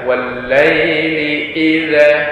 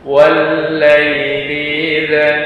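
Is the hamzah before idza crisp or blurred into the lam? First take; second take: crisp; blurred. First: The hamzah is pressed with a crisp stop. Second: The hamzah is weak, lengthening the preceding sound. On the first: The speaker calls it right. "Jadi yang benar adalah" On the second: The speaker calls it wrong. "Jika kurang penekanannya ... seperti memanjang pada huruf sebelumnya"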